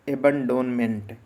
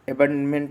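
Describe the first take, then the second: First: The middle 'o' syllable is pronounced. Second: The middle 'o' syllable is dropped. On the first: This follows the spelling to help memorize it. "याद करना है इसलिए याद रखेंगे एबंडोनमेंट" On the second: This is how the word is actually pronounced. "एबंडमेंट बोल देते हैं"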